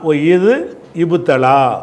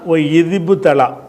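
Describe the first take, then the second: First: The words are said separately, keeping the initial vowel. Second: The words are joined, dropping the initial vowel. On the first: "இதை உடைச்சி சொன்னோம்னா" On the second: "சேர்த்து சொன்னோம்னா"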